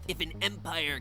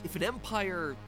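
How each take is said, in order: First: It is said in a put-on character voice. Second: It is said in the speaker's ordinary voice. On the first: The speaker calls it right. "Frog voice. I'm the Emperor" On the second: The speaker calls it wrong. "it just kind of sounds wrong in my usual voice"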